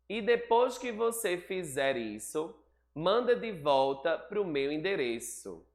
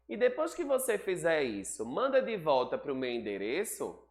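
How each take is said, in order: First: It is read like a statement, falling at the end. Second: It is read like a question, rising at the end. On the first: It is a statement. The speaker calls it wrong. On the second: It is a question. The speaker calls it right.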